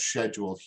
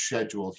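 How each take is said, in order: First: It is said the European way. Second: It is said the European way.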